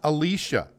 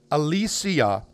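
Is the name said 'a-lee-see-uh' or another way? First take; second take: other; a-lee-see-uh. First: The name is not said as a-lee-see-uh. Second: The name is said as a-lee-see-uh. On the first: The speaker calls it wrong. "not Alicia" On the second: The speaker calls it right. "Alicia is how it's pronounced. A-L-I-S-E-E-U-H"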